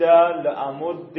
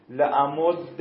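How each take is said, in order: First: لامد drawn out as "le-amudde"; final kasra. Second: لامد said "le-amudda", ending in short "a"; final fatha. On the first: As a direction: end a slow لامد on short "e". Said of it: "بعد کسره بگید". (لامد کشیده با کسرهٔ آخر) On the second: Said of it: "اول فتحه بگید". (لامد با فتحهٔ آخر) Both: Shown as a demonstration.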